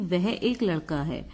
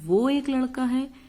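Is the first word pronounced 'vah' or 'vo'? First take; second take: vah; vo. First: The first word is pronounced as full 'vah'. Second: The first word is pronounced as reduced 'vo'. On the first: The speaker calls it right. "तो हम ये कह सकते हैं कि" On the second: The speaker calls it wrong. "वो अच्छा नहीं लगेगा, तो ये अशुद्ध होगा"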